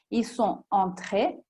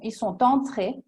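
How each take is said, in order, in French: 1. Le t de sont n'est pas lié à entrés. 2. Le t de sont est lié à entrés. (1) "è giusto" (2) "è un po' più elegante la seconda"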